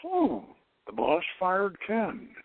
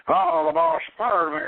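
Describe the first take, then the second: First: Slow, unbothered, stating a fact; detached calm. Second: Higher, louder hammed-up angry outburst; mock anger. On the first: Retold or imitated. The fired man at a higher center, calmly detached. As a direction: say it as if it happened to someone else. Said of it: "he's gotten beyond his personal feelings". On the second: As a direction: play a man fuming at being fired. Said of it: "and he's mad".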